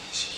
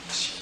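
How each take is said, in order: First: It is called very quietly, almost silently. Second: The same.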